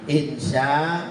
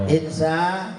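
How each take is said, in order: Both takes have the same delivery.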